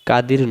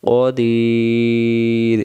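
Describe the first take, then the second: First: The first sound is a plain front k. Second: The first sound is a deep throaty q. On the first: The speaker calls it wrong. "কাদির নয়" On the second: The speaker calls it right.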